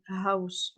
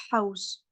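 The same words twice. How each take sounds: First: "house" with a light English h. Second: "house" with an Arabic throaty h; wrong rasped house. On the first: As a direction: say "house" with an easy, frictionless h. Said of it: "comme quand on dit house en anglais". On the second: Teacher showing what not to say, "house" with rasped h. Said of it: "On dit pas house". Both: Shown as a demonstration.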